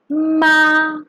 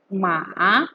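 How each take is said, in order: First: The pitch stays high and level. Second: The pitch dips low and then rises. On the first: "First tone. It has the highest pitch" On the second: "drops down to one, and then goes again to the fourth"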